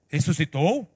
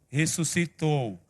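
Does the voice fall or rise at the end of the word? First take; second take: rises; falls. First: The voice rises at the end, like a question. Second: The voice falls at the end, like a statement. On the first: Asking whether he has risen; he is here. "se eu colocar ponto de interrogação" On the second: He has risen; he is not here. "É o que está na Bíblia"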